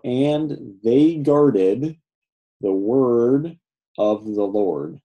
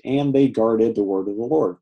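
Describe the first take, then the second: First: Very slow, phrase by phrase; measured word-by-word reading, much slower; slow translating. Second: Said in the usual way. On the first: Shown as a demonstration. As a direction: draw out each phrase, pausing before the next.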